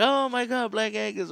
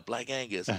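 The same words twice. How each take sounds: First: Much higher, louder squeal of fake amazement; mocking classmates. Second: Said in the usual way. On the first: Classmates mocking [name]'s fancy steak place, high mocking squeal. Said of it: "just started making fun of me". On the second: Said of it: "It's called, uh".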